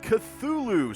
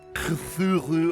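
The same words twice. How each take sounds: First: The name is said plainly, without throaty sounds. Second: The name is said with a throaty, guttural sound. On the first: The speaker calls it wrong. "that's not really the correct pronunciation for it" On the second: The speaker calls it right. "you gotta like clear your throat when you say it"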